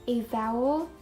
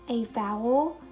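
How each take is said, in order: No difference in how they are said.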